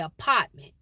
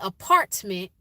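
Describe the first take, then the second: First: The R sound is dropped. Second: The R sound is clearly pronounced. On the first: "you say apartment. Y'all, that's the, the R is gone" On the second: "You don't say apartment"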